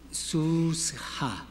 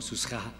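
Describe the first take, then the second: First: "susja" with a clear sheva, su-sh-ja, a touch higher; sheva shown. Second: Said in the usual way. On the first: Shown as a demonstration. Teacher showing the class the sheva in "susja". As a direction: stretch the middle of "susja" so the sheva sounds. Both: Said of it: "porque hay una E, una sheva por ahí".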